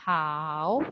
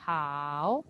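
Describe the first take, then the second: First: The pitch dips low, then rises. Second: The pitch dips low, then rises.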